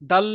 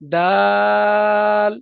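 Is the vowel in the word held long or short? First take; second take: short; long. First: The vowel is short, with no stretching. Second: The vowel is stretched out for a long time. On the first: The speaker calls it wrong. "অনেকে বলে দাল" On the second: The speaker calls it right. "দাল বলে টানতে হবে"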